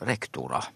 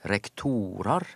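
First: The stress falls on the first syllable, rek. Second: The stress falls on the second syllable, tor. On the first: This follows everyday Norwegian usage. "det som er naturlig på norsk utifra norsk praksis er jo å ikke flytte trykket" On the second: This follows the traditional Latin rule. "Og da flytter trykket seg når det blir flertall"

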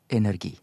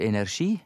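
First: It is said the Greek-based way. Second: It is said the French-borrowed way. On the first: The word follows its Greek origin. "mer ut ifra basisen i gresk" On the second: The word was borrowed from French. "for vi har lånt det fra fransk"

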